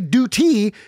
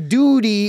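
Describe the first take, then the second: First: The t is crisp, sounding like 'dyoo-tee'. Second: The t is soft, sounding like 'doody'. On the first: It sounds like a plain military obligation. "that's not, funny" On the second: It sounds like a slang word for feces. "it's funny because it conjures images of feces"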